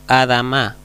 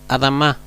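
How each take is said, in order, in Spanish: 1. La primera vocal se pronuncia completa. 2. La primera vocal apenas se pronuncia. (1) "Yo no digo Adama" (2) "Este signo casi ni, ni, ni se pronuncia"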